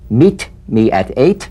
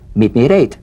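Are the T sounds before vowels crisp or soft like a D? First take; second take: crisp; soft. First: The T sounds before vowels are crisp and full. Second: The T sounds before vowels are softened toward D. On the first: The speaker calls it wrong. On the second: The speaker calls it right.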